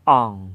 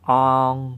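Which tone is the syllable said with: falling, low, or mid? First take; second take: low; mid. First: The syllable is said with a low tone. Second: The syllable is said with a mid tone. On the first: "อ่องเสียงเอก" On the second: "ก็คือเสียงวรรณยุกต์สามัญ"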